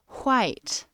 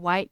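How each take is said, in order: First: It is said in an imitated Midwestern accent. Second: It is said in a plain, ordinary accent.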